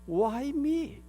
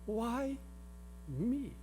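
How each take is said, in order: First: It is said in a very annoyed tone. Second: It is said in a curious, wondering tone. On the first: The speaker protests an unfair misfortune. "아주 짜증이 날 대로 짜증난 투로" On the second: The speaker genuinely wonders why they were chosen. "아주 호기심을 가지고"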